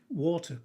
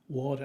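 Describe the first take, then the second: First: The middle consonant is a clear T, no R. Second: The middle is a D with a strong R.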